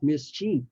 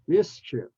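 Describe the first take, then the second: First: The second vowel is long, like in 'chief'. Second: The second vowel is short, like in 'if'. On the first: The speaker calls it wrong. "not mischief" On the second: The speaker calls it right. "it's at the short sound"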